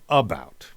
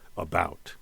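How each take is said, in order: First: The stress is on the first syllable. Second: The stress is on the second syllable. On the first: The speaker calls it wrong. "We don't say about" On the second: The speaker calls it right. "we give a little more boost to the second syllable"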